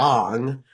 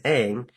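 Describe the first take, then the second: First: The vowel sounds like the o in long. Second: The vowel sounds like the a in cat. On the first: This is how the name is said in the movie. The speaker calls it wrong. "they specifically changed the pronunciation of his name in the movie to" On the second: This is how the name is said in the TV show. The speaker calls it right. "in the T V show, they pronounce Aang's name like this"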